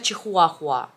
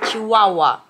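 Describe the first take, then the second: First: The word is said with the h sounds. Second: The word is said without the h sounds. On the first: This is how Russians commonly say it. The speaker calls it wrong. "Но русские говорят чихуахуа" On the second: This is how the breed name is properly said. The speaker calls it right. "говорится чиуауа"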